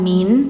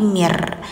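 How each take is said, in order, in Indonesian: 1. Kata itu diakhiri dengan bunyi n yang jelas. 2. Bunyi n diganti dengan bunyi r. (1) "jangan min" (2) "tapi mir"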